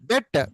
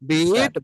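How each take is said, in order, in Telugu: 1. ఈ అచ్చు హ్రస్వ 'e' ధ్వని. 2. ఈ అచ్చు దీర్ఘ 'ee' ధ్వని. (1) "పాస్ట్ టెన్స్ లో బెట్ అనాలి" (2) "ఫ్యూచర్ లో మళ్ళీ విల్ బీటే"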